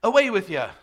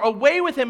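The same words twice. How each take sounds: First: Dismissive attempt at a British accent, slipping into Irish; snobby British accent. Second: Loud, higher, forceful rejection; violent mob cry. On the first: Showing a congregation the wrong reading, mock snobby British accent. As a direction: wave them off in a hammed-up snobby British accent. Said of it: "dismissive and snobby, like, British". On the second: Preacher showing what the mob truly meant, violent and intense. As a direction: throw it out like an angry crowd. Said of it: "This is unbelievably violent". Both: Shown as a demonstration.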